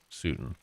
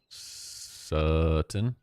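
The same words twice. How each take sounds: First: The first vowel sounds like in 'suit'. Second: The first vowel sounds like in 'sub'. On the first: "Like a suit" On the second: "As in sub, sub, submarine"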